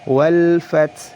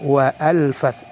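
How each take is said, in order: First: The words run straight into the l. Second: An extra vowel splits wa from al. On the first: The speaker calls it right. "langsung masuk ke huruf berikutnya" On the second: The speaker calls it wrong. "tidak boleh"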